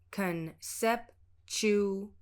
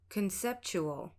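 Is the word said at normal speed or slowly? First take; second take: slowly; normal speed. First: The word is said slowly, syllable by syllable. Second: The word is said at a normal speed. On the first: "I'll pronounce it slowly using a clear respelling" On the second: "then at normal speed"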